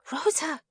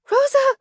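First: Hushed, high-pitched nervous call; nervous whisper. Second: Loud, high-pitched shout of the name; alarmed cry. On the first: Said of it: "Melina whispered nervously". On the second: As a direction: cry out in panic to a friend. Melina cries out in alarm. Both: A narrator's reading.

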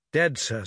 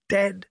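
First: Said in the usual way. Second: DEAD as a higher-pitched question; shocked echo. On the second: A narrator's reading. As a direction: repeat DEAD back in restrained disbelief. Admiral echoes the news in shock.

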